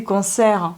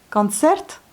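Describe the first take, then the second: First: Said in the usual way. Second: Concert said as kantsert, final t sounded; Russian concert, first vowel almost a; Russian pronunciation. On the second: Shown as a demonstration. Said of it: "presque comme un A". (prononciation russe, O presque A)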